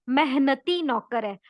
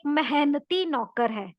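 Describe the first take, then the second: The two takes are said the same way.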